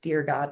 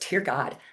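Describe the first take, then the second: First: It is said evenly, as a calm greeting. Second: It is said as a dismayed exclamation. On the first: It addresses God, as at the start of a letter. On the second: It expresses shock or exasperation.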